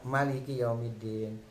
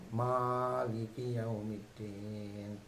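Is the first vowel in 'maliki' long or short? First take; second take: short; long. First: The first vowel after m is short. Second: The first vowel after m is long. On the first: The ruler is only a king on the last day. The speaker calls it wrong. "dia tanpa panjang" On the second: The ruler is king of kings on the last day. The speaker calls it right. "dia mimnya panjang"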